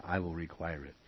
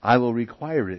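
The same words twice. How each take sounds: First: Dropped soft, almost an aside; quiet echo of the verse; softer repeat. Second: Said in the usual way. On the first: Shown as a demonstration. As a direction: say it again quietly, falling. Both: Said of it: "I'll add".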